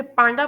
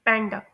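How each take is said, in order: First: पांडा with a long "aa", like pahnda; the common error पांडा; wrong panda. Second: पैंडा with a flat "a" as in cat; the correct पैंडा; correct panda. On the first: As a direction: say पांडा the mistaken way, "pahn-da". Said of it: "लोग इसे पांडा pronounce करते हैं". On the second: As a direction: say पैंडा the right way, "pan-da". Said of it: "इसे pronounce किया जाता है". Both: Shown as a demonstration.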